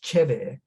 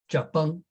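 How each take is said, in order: First: It is said in Shanghainese. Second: It is said in southern Fujian Min.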